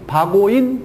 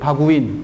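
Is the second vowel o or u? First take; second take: o; u. First: The second vowel is an o sound. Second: The second vowel is a u sound. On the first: The speaker calls it wrong. "바고인이 발음이 편해요? 불편해요?" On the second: The speaker calls it right. "오를요 유로 바꿔보세요"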